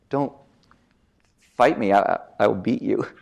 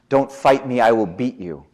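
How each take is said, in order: First: It is said in a timid, hesitant way. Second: It is said in a confident, dominant way. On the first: The threat clashes with a submissive manner. "We can mix it up" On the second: The speaker asserts power over the listener. "I also said it in a high status way"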